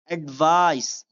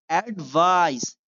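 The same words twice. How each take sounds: The two takes are said the same way.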